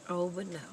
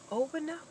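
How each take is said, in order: First: Said in the usual way. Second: Squeaky high "Oh, but no" tossed off; high sassy no; high mock refusal. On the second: Shown as a demonstration.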